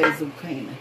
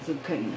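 First: Zucchini said zoo-KAY-nuh, the long A way; mock zucchini. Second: Said in the usual way. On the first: Shown as a demonstration. Cook mocking viewers' way, zoo-KAY-nuh zucchini. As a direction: imitate how some folks say zucchini. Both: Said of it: "some of y'all would say".

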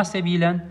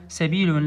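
First: سبيلًا ending in -an, the accusative tanween; wrong case ending. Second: سبيل said as sebilun with nominative -un; corrected case ending. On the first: Teacher shows students the wrong form سبيلًا ending in -an. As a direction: say سبيلًا with a final -an as the case to avoid. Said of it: "يصير ما النصح للإخوان إلا سبيل". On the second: Teacher corrects students to سبيل pronounced sebilun. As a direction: end سبيل on a clear -un. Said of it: "لأن سبيل يصير خبر للمبتدأ". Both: Shown as a demonstration.

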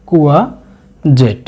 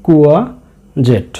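First: কুয়াজেট said very slowly, each syllable clear; careful slow pronunciation. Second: Said in the usual way. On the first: Shown as a demonstration. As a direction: model কুয়াজেট slowly for the class. (ধীরে ধীরে কুয়াজেট উচ্চারণ) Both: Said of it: "খেয়াল রাখবেন উচ্চারণটি কুয়াজেট".

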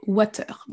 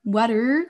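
First: "water" with a French A and a full R; "water" as /watœʀ/; French-style water. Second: "water" as /wadɛ/; American water. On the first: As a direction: sound out every letter in "water". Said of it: "comme un vrai A français". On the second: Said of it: "Au lieu de dire". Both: Shown as a demonstration.

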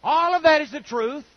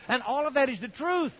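First: Repeated louder and higher, rising on that; emphatic repeat. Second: Said in the usual way. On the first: Shown as a demonstration. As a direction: hammer the point home the second time. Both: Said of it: "but it doesn't take First Corinthians".

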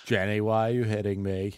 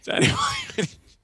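First: Forrest Gump voice. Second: Very high, strained Forrest Gump. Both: Retold or imitated. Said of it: "He just calls everyone Jenny".

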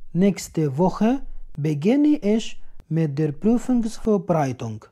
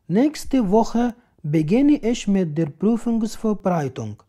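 No difference in how they are said.

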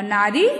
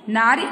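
First: "नारी" as naaree, ending held and rising; long final ee. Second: "नारी" cut short as naari; short final i. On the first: Teacher reads the correct spelling, "नारी" with long ee. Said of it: "शुद्ध शब्द है।". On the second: Teacher reads the incorrect spelling, "नारी" with short i. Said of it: "अशुद्ध शब्द है". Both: Shown as a demonstration.

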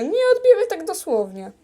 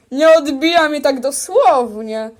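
First: Quicker and a bit higher; hurried insistent repeat; faster repeat. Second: Said in the usual way. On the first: Pretend. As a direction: rush it out again, pitched up.

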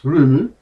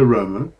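First: "Rumu" said with an oo sound, ROO-moo; correct local pronunciation. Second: "Romu" said with an o sound, ROH-moo; wrong pronunciation. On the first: Author correcting the island's name to the local "Rumu". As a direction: correct himself to "Rumu", oo in both syllables. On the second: Author giving the misread name of the island, "Romu" with an o. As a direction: say "Romu" the way an outsider reads it, with an o. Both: Shown as a demonstration. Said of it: "pronounced Rumu".

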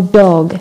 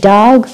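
First: "dog" with a rounded "aw", like "dawg"; American AW vowel. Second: "dog" with an open "ah", like "dahg"; American open vowel. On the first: Teacher repeating second American option, "dog" as "dawg". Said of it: "ما بيحكوا dog as British". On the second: Teacher repeating first American option, "dog" as "dahg". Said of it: "ال Americans كيف بيلفظوا ال dog". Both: Shown as a demonstration.

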